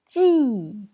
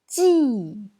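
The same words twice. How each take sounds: First: It is said with the fourth tone. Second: The same.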